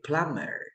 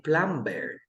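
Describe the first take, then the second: First: Plumber as "PLUM-er", no B; American silent B. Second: Plumber with the B sounded, "plum-bair"; common mispronunciation. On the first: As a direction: go straight from M to "er" in plumber. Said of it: "In American English, we say plumber". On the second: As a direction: say a clear B in the middle of plumber. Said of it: "People say plumber". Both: Shown as a demonstration.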